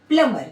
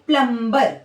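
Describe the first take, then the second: First: The b sound is silent after the m. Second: The b sound is pronounced after the m. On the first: The speaker calls it right. "इसका जो सही pronunciation है वो क्या है?" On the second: The speaker calls it wrong. "आमतौर पर देखा जाता है कि इसको सब लोग क्या पढ़ते हैं? ... जो गलत है"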